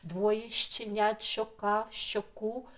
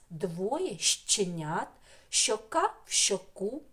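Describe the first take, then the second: First: The phrase is spoken at a faster pace. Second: The phrase is spoken at a slower pace.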